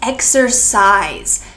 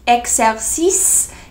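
First: The last syllable sounds like size. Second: The last syllable does not sound like size. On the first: The speaker calls it right. "It sounds like the word size" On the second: The speaker calls it wrong. "It is not exercice"

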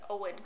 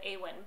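First: The name starts with an 'oh' vowel. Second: The name starts with an 'ah' vowel. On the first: The speaker calls it right. "but it's Owen Colfer" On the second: The speaker calls it wrong. "I always pronounce it Awen"

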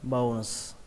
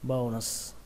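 First: The word ends with an s sound. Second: The same.

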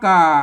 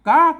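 First: The syllable is said with the ek tone. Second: The syllable is said with the tri tone. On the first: "เอก" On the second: "ติ"

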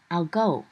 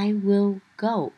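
First: 'I will' is said quickly as one contracted syllable. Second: Both words of 'I will' are said in full. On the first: "Đọc nhanh là I'll go" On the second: "Hoặc là I will go"

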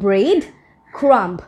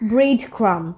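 First: The word ends with an audible b sound. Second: The word ends on the m, no b sound. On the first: The speaker calls it wrong. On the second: The speaker calls it right. "শেষের যে বিটা আছে এটা কিন্তু silent"

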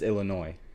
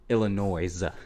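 First: The word ends with a vowel sound. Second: The word ends with a z sound. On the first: The speaker calls it right. "And it's not. It's Illinois" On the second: The speaker calls it wrong. "With a Z at the end"

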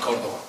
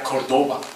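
First: The name is said with a Spanish pronunciation. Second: The name is said with an American pronunciation. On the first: "not Cordoba" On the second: "for the Americans, we are Cordoba"

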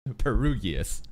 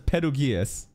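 First: The name is said with English-style sounds. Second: The name is said with Japanese-style sounds. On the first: This is how an ordinary English speaker would say it. "any normal person would probably call" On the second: This follows how the original Japanese version says it. "That's what the Japanese say"

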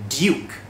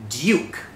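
First: It is said in a British accent. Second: The same.

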